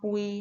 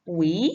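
First: The syllable is said in its base tone. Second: The syllable is said with a changed tone. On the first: "ปออุยอปุย" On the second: "ไม่จัตวา ปุ๋ย"

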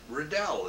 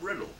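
First: The stress is on the last syllable. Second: The stress is on the first syllable. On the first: The form a teacher gave the name. "put the pronunciation on the last syllable" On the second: The original Scottish form of the name. "instead of"

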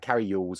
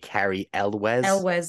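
First: The surname begins with a 'yoo' sound. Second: The surname begins with an 'el' sound. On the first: The speaker calls it wrong. "although I got told off" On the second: The speaker calls it right. "it's apparently Carrie Elwes"

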